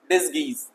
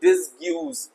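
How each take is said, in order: First: The g goes straight into the vowel. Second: A 'y' glide follows the g sound. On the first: The speaker calls it right. "No, डिसगीज, okay" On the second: The speaker calls it wrong. "यू बिल्कुल silent है तो please don't read it और प्रोनाउंसिएट it डिसग्यूज"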